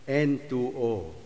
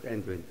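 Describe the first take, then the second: First: It is read as the letter N, two, O. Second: It is read as the letter N, twenty. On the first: It names the gas nitrous oxide. The speaker calls it right. "it is read as N20" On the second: It names the N20 constituency. The speaker calls it wrong. "not N20"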